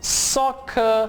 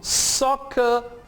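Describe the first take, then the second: No difference in how they are said.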